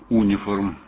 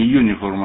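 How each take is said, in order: First: The word begins with an 'oo' sound. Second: The word begins with a 'you' sound. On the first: The speaker calls it wrong. "а униформ" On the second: The speaker calls it right. "Не юниформ"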